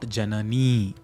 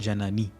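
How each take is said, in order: First: The final vowel is held long. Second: The final vowel is cut short. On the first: The speaker calls it wrong. "It is not Janani. It is not a Dirgha I" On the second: The speaker calls it right. "It is a Hrasva I. It stops at Janani"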